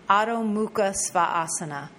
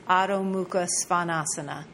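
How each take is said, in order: No difference in how they are said.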